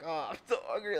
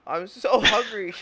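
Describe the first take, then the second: First: Mock hungry murmur. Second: Whiny hunger. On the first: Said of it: "and you're like". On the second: Retold or imitated. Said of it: "their kid is like".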